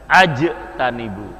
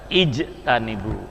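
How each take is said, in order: First: The word begins with an 'a' vowel. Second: The word begins with an 'i' vowel. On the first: The speaker calls it wrong. "Tidak ajtanibu" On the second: The speaker calls it right. "Kenapa dibaca ijtanibu"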